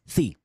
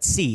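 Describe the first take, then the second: First: The first sound is a lisped th sound. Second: The first sound is a plain hissing s. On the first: The speaker calls it right. "It's sí" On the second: The speaker calls it wrong. "not sí"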